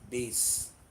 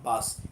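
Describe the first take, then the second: First: The vowel sounds like the one in face. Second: The vowel sounds like the one in mass. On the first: The speaker calls it right. "it is bass" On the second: The speaker calls it wrong. "It is not bass"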